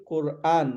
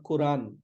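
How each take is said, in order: First: Quran as kur-AAN, long last vowel; "Quran" split before the long aan; correct Quran. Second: Quran run together as ku-RAAN; "Quran" as one smooth koo-ran; mispronounced Quran. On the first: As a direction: say Quran in two weighted parts. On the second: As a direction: say Quran wrongly, without the break. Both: Shown as a demonstration. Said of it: "not Quran".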